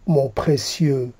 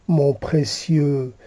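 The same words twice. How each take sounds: The two takes are said the same way.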